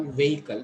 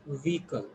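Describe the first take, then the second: First: Vehicle as VAY-i-kul; wrong pronunciation. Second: Vehicle with long E, VEE-kul; correct pronunciation. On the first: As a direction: say vehicle as "veh-ikal". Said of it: "You should not call vehicle". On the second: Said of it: "You should call it vehicle". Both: Shown as a demonstration.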